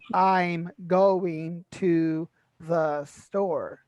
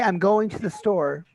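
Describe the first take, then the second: First: The sentence is said slowly, each word separate. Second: The sentence is said quickly, words run together. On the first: The speaker calls it wrong. "We don't say" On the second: The speaker calls it right. "hear how quickly I said I'm going to the store"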